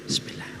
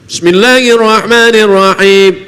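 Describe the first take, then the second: First: It is recited quietly, barely audible. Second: It is recited aloud, audibly.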